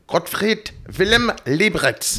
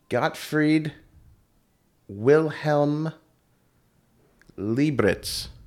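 First: The name is said with a heavy German accent. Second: The name is said plainly, without a German accent.

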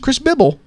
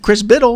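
First: The surname has a b sound in the middle. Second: The surname has a d sound in the middle. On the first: The speaker calls it wrong. "this is what you do" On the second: The speaker calls it right. "Those are B-D's"

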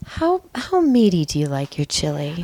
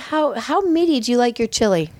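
First: The question is asked in a seductive voice. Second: The question is asked in an ordinary voice.

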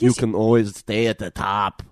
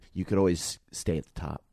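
First: It is said in an imitated Austrian accent. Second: It is said in the speaker's ordinary voice.

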